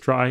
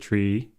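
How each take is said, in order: First: The vowel sounds like 'eye' in 'my'. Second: The vowel sounds like 'ee' in 'see'. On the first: It keeps the word distinct from tree. "other authors pronounce it as try" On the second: It follows the middle syllable of retrieval. "pronouncing it tree after the middle symbol mil, after the middle syllable of retrieval"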